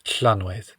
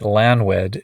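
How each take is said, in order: First: The word begins with a hissing L sound. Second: The word begins with a plain L sound. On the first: The speaker calls it right. "you put your mouth in the position for an L and then try to say an S" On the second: The speaker calls it wrong. "pronouncing it Lanwed is a perfect way to ensure that the Duchess will think of you as a certified hick"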